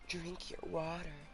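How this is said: It is said in a sexy, seductive way.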